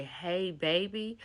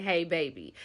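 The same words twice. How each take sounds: First: Put-on slow, rising disbelief on 'Hey, baby'; the boyfriend repeating her words in disbelief; incredulous repeat. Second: Said in the usual way. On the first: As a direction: drag out 'Hey, baby' as a stunned question. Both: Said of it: "His words exactly are".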